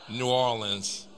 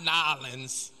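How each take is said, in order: First: The name keeps New and Orleans apart. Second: The name is squeezed into one clipped word. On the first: The speaker calls it right. "That's how locals say New Orleans" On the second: The speaker calls it wrong. "Not Nolens"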